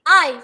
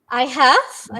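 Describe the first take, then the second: First: 'Have' is reduced to a v sound after 'I'. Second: Both words are said fully and separately. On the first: "it is I've" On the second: "there's the full words I have"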